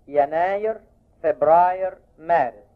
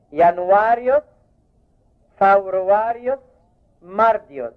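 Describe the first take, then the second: First: Said in the usual way. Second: ينوايوس said as janwaro with a raised, rising tone; فبراير said as fawruarjo, مارديوس as mardio, like a teacher; Latin month names. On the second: Shown as a demonstration. (نطق لاتيني للشهور: ينوايوس، فبراير، مارديوس بنبرة أعلى) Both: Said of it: "الشهور الرومانية".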